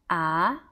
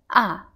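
First: The pitch rises like a question. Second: The pitch falls sharply like a cry of pain. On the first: "the second tone will sound like a question tone" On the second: "the fourth tone, ah, it sounds very painful when you say ouch"

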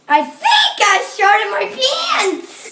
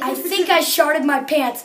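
First: It is said in a squeaky voice. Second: It is said in a normal voice.

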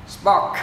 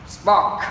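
The two takes are said the same way.

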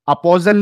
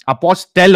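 First: The middle consonant sounds like a z. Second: The middle consonants sound like s and t. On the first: The speaker calls it wrong. "अपोजल नहीं होता है" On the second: The speaker calls it right. "अपोस्टेल होता है"

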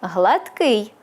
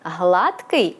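First: The stress is on the second syllable. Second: The stress is on the first syllable. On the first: It means plump and well-fed. "наголос на другому складі – це повнотілий" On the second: It means smooth and even. "наголос на першому складі – це позбавлений загинів"

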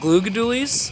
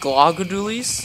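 First: The first syllable has a long 'oo' vowel. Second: The first syllable has a short 'u' vowel. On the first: The speaker calls it right. "that's why they're called Glugadoolies" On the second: The speaker calls it wrong. "And not Glugadoolies"

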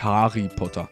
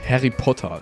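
First: The A vowel is drawn out long. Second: The A vowel is kept short. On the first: The speaker calls it wrong. "Das heißt ja auch nicht Harry Potter" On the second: The speaker calls it right. "Also so wie Harry Potter"

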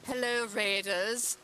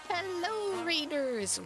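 First: It is spoken in a put-on character voice. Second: It is spoken in the speaker's own natural voice. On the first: "now I gotta go back to the Duchess voice" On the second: "I should be doing my Duchess voice right now, but I'll go back to that in a second"

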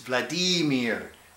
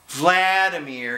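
First: The stress is on the middle syllable. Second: The stress is not on the middle syllable. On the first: The speaker calls it right. "the Russians have their accent in the center of every word" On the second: The speaker calls it wrong. "It's not Vladimir"

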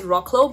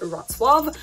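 First: The name is read out following its letters. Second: The name is said in its native pronunciation. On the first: The speaker calls it wrong. "It's actually spelled as Rocklo" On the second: The speaker calls it right. "but pronounced as Wrocław"

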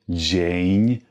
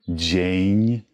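The two takes are said the same way.

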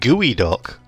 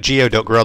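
First: The word begins with the sound 'gooey'. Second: The word begins with the sound 'gee-oh'. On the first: "It's actually pronounced Gooey Duck" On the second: "I'm going to keep calling it Geoduck"

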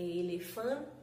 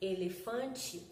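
First: The final vowel sounds like 'eh'. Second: The final vowel sounds like 'ee'. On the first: This matches how the word is written. "é elefante, com E" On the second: This is how people from the region say it. "embora nós falamos elefante"

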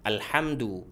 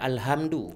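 First: The h is a tight, throaty sound. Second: The h is a plain, breathy sound. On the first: All praise belongs to God. The speaker calls it right. "jadi ha itu di pertengahan tenggorokan" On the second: Everything damaged belongs to God. The speaker calls it wrong. "Ada orang baca alhamdu"

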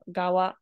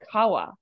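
First: The word begins with a g sound. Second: The word begins with a k sound. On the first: The speaker calls it right. "It's actually still pronounced with the glottal stop" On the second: The speaker calls it wrong. "it actually is not Kawa"

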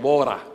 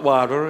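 First: It is said in an Australian accent. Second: It is said in an American accent. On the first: The speaker calls it right. "This is the Aussie way" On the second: The speaker calls it wrong. "I said not water"

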